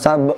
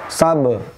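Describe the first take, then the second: First: The final consonant is held back. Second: The final consonant is released with a bounce. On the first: The speaker calls it wrong. "bukan sabe" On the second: The speaker calls it right. "Di sini sabe"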